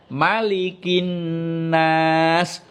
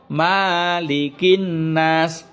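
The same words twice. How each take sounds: First: The first vowel is held short. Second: The first vowel is held long. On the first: The speaker calls it right. "Ma-nya itu pendek ya" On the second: The speaker calls it wrong. "bukan ... Salah ya"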